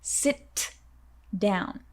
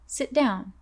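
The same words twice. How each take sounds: First: The T is fully released before down. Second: The T is stopped, linking into down. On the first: The speaker calls it wrong. "instead of" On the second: The speaker calls it right. "stop the T sound in sit to connect with the word down"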